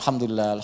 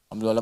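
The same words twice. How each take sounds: First: The word is said slowly and deliberately. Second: The word is said quickly, in a rushed string. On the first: The words are felt in the heart. The speaker calls it right. "Coba dia ucapkan pelan-pelan" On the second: The words are only on the tongue, not felt. The speaker calls it wrong. "Tapi nggak ada yang nyampe ke hati gitu"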